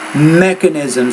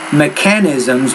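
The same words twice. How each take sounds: First: The stress is on the first syllable. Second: The stress is on a later syllable. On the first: The speaker calls it right. "put the stress on that first syllable" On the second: The speaker calls it wrong. "not mechanisms"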